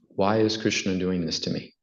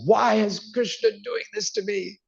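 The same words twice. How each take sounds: First: It is said calmly and with composure. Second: It is said with frustration.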